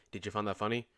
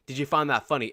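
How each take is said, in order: First: Imitating an emotionless, creepy deadpan; softer mock-monotone question; super monotone. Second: Said in the usual way. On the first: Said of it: "he was super, super monotone. He was like". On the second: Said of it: "the way he said it".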